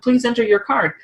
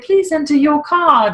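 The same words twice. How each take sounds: First: It is said in a plain American accent. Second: It is said in a British accent.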